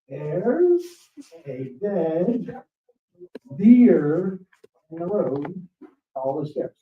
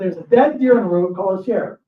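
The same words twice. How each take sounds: First: It is said slowly and deliberately. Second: It is said at normal speed.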